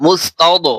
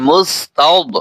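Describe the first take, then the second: First: "মুস্তাদ" with a bouncing echo on the final দ; wrong qalqala. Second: "মুস্তাদ" with the final দ held, no bounce; no qalqala. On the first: Teacher showing learners a common mistake, "মুস্তাদ" with wrongly bounced দ. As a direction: release the দ of "মুস্তাদ" with a small extra vowel bounce. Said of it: "এখানে কলকলা করে". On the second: Teacher spelling for learners, "মুস্তাদ" without bouncing the দ. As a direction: close "মুস্তাদ" on a heavy, unreleased দ. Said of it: "কলকলা এখানে করা যাবে না". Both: Shown as a demonstration.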